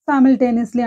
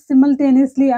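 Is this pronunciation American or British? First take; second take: American; British. First: The word is said with an American pronunciation. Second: The word is said with a British pronunciation.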